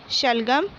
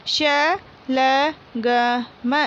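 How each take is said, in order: First: Said in the usual way. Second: शलगम drawn out very slowly as श-ल-ग-म; slow syllable reading. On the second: Shown as a demonstration. Teacher reading शलगम aloud for pupils, very slowly. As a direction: sound out शलगम one syllable at a time. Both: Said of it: "मौखिक बोलकर पढ़िए".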